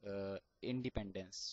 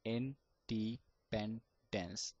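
First: Said in the usual way. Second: Very slow, Independence stretched out sound by sound; one by one. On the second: Shown as a demonstration. Teacher to stammerers: Independence very slow, piece by piece. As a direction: tap out Independence slowly, one piece per finger. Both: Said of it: "talk one by one letter of the word like that".

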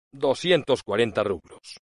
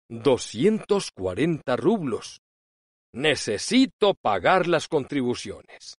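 First: Said in the usual way. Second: "Doscientos cuarenta rublos" slow and plaintive. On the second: A narrator's reading. Pishik begs Lubova for money, slow and plaintive. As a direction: drag it out mournfully.

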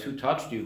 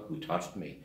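First: Mock disbelief on touched, a light sneer; scoffing echo. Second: Low, soft, wondering ask; Jesus quietly asks who touched him; puzzled quiet question. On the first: Peter mocking Jesus' question, scoffing. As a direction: toss the question back as if it were obvious. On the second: Retold or imitated. A hushed, searching question.

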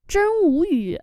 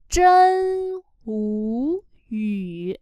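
First: Said in the usual way. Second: Ú and yu each said slowly and fully; clear vowels. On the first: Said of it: "Để ý nha". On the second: Shown as a demonstration. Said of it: "Ở đây hai nguyên âm u và yu". (đọc rõ hai nguyên âm ú yu thật chậm)

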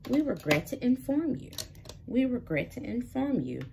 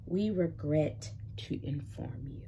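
First: Mock rejection email. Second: Slower, softer, worn-down rejection line; weary repeat. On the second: Retold or imitated. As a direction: let it sag like the hundredth rejection. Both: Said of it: "email after email of".

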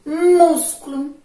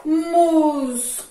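First: Músculo loud and higher, slow, MÚS hit hard; stressed reading. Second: Músculo slow and loud, punching MÚS; stressed reading. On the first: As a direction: belt out MÚS for the pupils. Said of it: "Vamos mais uma vez?". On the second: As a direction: hit MÚS hard and drag the word. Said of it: "vamos fazer a leitura dessas duas palavrinhas". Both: Shown as a demonstration. Teacher to class, stressing the first syllable loudly.

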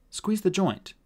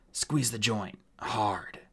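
First: Higher, lighter voice; thoughtful repetition, raised in pitch; puzzled echo. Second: Strained dwarf order; terse, hurting, softer on the last word; in pain. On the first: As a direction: repeat the instruction, mulling it over. Artemis echoes the dwarf's instruction. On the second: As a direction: push the order out through pain. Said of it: "eyes closed with pain". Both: Acted.

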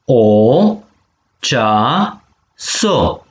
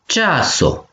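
First: Cea, so held apart with a pause; syllable by syllable. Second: Said in the usual way. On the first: Shown as a demonstration. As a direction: model cea - so for the class to echo. (pe silabe: cea, so) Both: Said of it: "penem vitumen".

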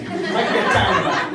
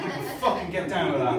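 First: Loud, eager approval; really into the pizza, loud; excited. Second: Fucking hit hard, rest at normal level; stress on fucking. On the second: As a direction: lean on fucking. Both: Retold or imitated. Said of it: "And I am like".

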